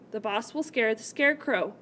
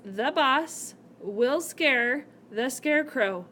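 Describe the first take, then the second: First: Said in the usual way. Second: Slow reading. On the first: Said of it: "Who will the boss scare?". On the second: Shown as a demonstration. Teacher reading the example to her class, slowly. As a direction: read the sentence out slowly, leaning on boss. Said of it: "the sentence says".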